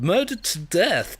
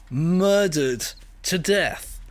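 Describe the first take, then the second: First: "murdered" quicker, less drawn out; murdered to death, lighter. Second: Murdered drawn out slow and heavy; stress on murdered. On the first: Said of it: "Not just regular murdered". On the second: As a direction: lean hard on "murdered", slow. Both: Shown as a demonstration.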